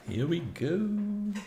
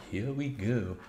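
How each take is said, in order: First: "Here we go" drawn out high and slow, rising to "go"; sing-song here we go. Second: Said in the usual way. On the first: Acted. Game starts, sung-out announcement.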